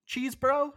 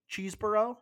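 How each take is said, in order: First: Chesebro? asked much higher and louder; puzzled high query. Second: Unsure name. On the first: Host doubts the lawyer's name, asks again higher. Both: Real, not acted. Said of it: "I think it's Chesebro".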